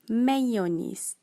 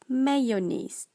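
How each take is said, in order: No difference in how they are said.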